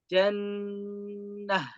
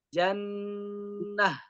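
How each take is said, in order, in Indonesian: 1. Kata ini berakhir dengan bunyi h yang lembut. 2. Kata ini berakhir dengan bunyi h yang lembut.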